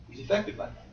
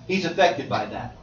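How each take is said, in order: First: Breathy whisper on affected. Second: Said in the usual way. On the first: Shown as a demonstration. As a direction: drop to a whisper to stress it.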